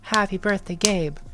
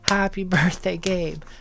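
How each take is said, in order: First: It is said faster and with high intensity. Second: It is said slower and with less intensity.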